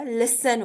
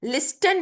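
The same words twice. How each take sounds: First: लिसन with no t at all; correct pronunciation. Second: लिस्टन with the t sounded; wrong pronunciation. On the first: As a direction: drop the t, say लिसन. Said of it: "लिसन होता है". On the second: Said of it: "लिस्टन नहीं होता". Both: Shown as a demonstration.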